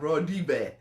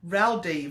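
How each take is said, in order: First: The name is pronounced in a foreign way. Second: The name is pronounced in an English way. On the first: This is the name's actual pronunciation. The speaker calls it right. "it's actually like" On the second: This is the familiar way the speaker says it. The speaker calls it wrong. "is how I know to say it"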